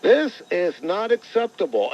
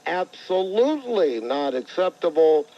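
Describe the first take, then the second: First: Said in the usual way. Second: Weight on "Absolutely", stretched out and pitched up; added weight. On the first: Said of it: "Steinbrenner issued a statement". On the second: Retold or imitated. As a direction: lean hard on "Absolutely" to toughen the quoted statement. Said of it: "to carry a little bit more weight".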